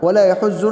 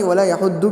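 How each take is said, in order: First: The doubled consonant is a plain z sound. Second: The doubled consonant is a plain d sound. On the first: "ना ज़ौद पढ़े ... वला यहुज़्ज़ु नहीं" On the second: "ना दाल पढ़े ... वला यहुद्दु भी नहीं"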